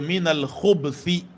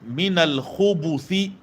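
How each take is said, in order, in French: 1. Aucune voyelle ne se prononce après le b. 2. Une voyelle u courte se prononce après le b. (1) "en mettant juste un soukoun sur le bas" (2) "mettre un dhamma au niveau du bas"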